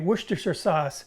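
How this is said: It is said the American way, fuller. "For those of us in the United States, I will say"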